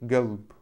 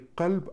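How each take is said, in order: First: The word starts with a g sound. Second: The word starts with a k sound. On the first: This is the Gulf dialect form. "произносят эту букву как уже Г" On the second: This is the standard form. "Не кальб"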